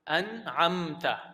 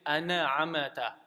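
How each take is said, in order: First: The m is held with no vowel after it. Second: An extra vowel is added after the m. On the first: The speaker calls it right. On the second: The speaker calls it wrong.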